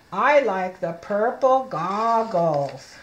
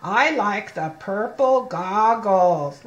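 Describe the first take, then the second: First: Slow again, each word set apart; slow model reading. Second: Slow reading, each word apart; slow model reading. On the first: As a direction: model it slowly once more. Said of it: "Look at me". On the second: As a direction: read it slowly so the child copies the mouth. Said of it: "look at me". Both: Shown as a demonstration.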